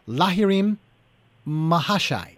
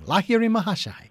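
First: The name is said haltingly, syllable by syllable. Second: The name is said smoothly in one flow. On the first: The reader was still unfamiliar with the name. "it was almost stilted" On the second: The reader had become familiar with the name. "it was just rolled off his tongue"

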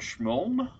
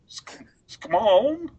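First: The name is said with its local pronunciation. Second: The name is said with an Australian accent. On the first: "that's exactly how you say it" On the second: "in Australian, that'd be Schmoln"

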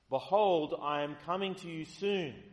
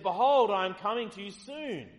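First: It is said at normal volume. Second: It is said louder than normal.

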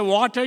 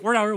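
First: It is said in a non-American accent. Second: It is said in an American accent.

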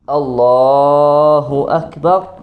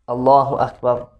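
First: The phrase is stretched out and drawn long. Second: The phrase is said at a steady, even length. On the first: The takbir accompanies going all the way down. "they elongate the takbir" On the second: Every takbir is said the same way. "It's just a straight simple Allahu Akbar"

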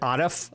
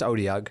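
First: The name ends with an f sound. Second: The name ends with a g sound. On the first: The speaker calls it wrong. "I always pronounce it Odif" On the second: The speaker calls it right. "I'm pretty sure it's Odyug"

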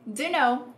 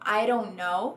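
First: The t is dropped in a reduced form. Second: The t becomes a quick r-like flap. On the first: "usando a contração informal" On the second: "formando um R"

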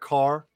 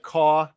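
First: It is said without a New Jersey accent. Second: It is said in a heavy New Jersey accent. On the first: "instead of car" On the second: "Has like that heavy New Jersey. Accent still to this day, so she'll say like caw"

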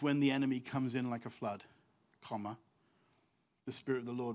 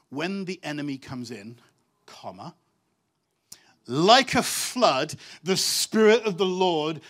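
First: The break comes after the word flood. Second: The break comes after the word in. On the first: The enemy is the one coming like a flood. The speaker calls it wrong. "the translation's got the comma in the wrong place" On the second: The Spirit comes like a flood against the enemy. The speaker calls it right. "It actually reads like this"

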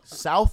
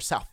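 First: The word ends with a th sound. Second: The word ends with an f sound.

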